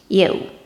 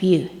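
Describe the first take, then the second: First: The vowel has a Cockney diphthong quality. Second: The vowel has a standard English quality. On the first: "you instead of you" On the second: "instead of you"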